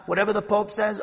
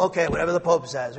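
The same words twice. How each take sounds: First: Said in the usual way. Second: Quick, dismissive parroting of a follower; mock blind obedience. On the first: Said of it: "plain version before mocking take". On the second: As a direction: rattle it off like a mindless yes-man. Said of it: "That's blind obedience".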